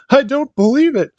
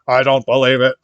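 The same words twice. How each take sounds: First: It is said with an emotional, excited voice. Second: It is said in a flat, robotic voice.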